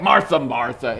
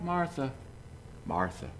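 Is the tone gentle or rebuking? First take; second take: rebuking; gentle. First: It is said as a sharp rebuke. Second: It is said gently, without rebuke.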